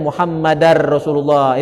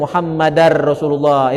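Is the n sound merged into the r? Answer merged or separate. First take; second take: merged; merged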